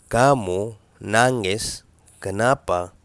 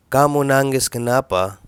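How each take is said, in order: First: "كامو نانجس كنابا" said slowly, word by word; slow teaching repeat. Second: Said in the usual way. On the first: Shown as a demonstration. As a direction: spell it out slowly for the learner. (نطق بطيء وواضح لـ"كامو نانجس كنابا")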